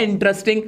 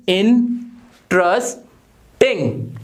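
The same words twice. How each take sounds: First: Said in the usual way. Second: इंटरेस्टिंग very slowly as "in... tres... ting"; syllable by syllable. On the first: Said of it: "अगर कोई word है". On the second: Shown as a demonstration. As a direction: break इंटरेस्टिंग into three, long pauses between. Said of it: "कैसे बोलोगे मुंह से". (इंटरेस्टिंग तीन टुकड़ों में, रुक-रुककर)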